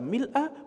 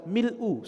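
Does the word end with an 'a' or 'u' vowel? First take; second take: a; u. First: The word ends with an 'a' vowel. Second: The word ends with a 'u' vowel. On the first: "Boleh dibaca mil'a" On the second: "boleh dibaca mil'u sebagai khobar dari mubtada' yang dihapus"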